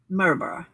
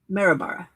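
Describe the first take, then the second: First: The name is said with an Australian pronunciation. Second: The name is said with an Australian pronunciation.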